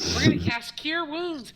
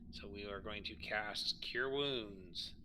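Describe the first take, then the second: First: It is said with lively excitement. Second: It is said flatly, without excitement.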